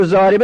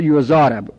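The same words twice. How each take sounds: First: Said in the usual way. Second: یضارب said as "yuzarabu"; passive vowelling. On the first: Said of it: "بخوایم مجهول کنیم". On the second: Shown as a demonstration. Teacher making yuzaribu passive, penultimate vowel a. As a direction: say یضارب with a before the final bu.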